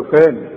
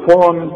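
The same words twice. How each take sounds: First: «فاني» بألف رقيقة; رقق الفاء في «فاني»; فاء مرققة. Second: «فاني» بألف غليظة; فخم «فاني» كنموذج للخطأ; فاء مفخمة خطأ. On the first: Shown as a demonstration. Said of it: "والفه في عموم القرآن فاء". («فاني» دون تفخيم) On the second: Retold or imitated. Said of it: "مش كله فاني". («فاني» قريبة من «فون»)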